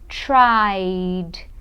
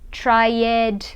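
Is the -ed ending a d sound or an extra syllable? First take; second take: d sound; extra syllable. First: The ending is just a final d sound. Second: The ending is pronounced as an extra syllable. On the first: The speaker calls it right. "Som de D sem o E" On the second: The speaker calls it wrong. "Muita gente fala assim, pronunciando o E"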